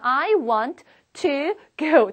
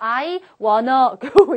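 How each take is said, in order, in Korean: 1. 각 단어를 완전하고 또렷하게 발음합니다. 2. 'want to'는 'wanna'로 줄여서 발음하는데, 딱딱하게 들립니다. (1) "또박또박 해주시는 게 차라리 더 낫습니다" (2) "전혀 자연스럽지 않은 상태에서 I wanna go 이런 식으로 하면"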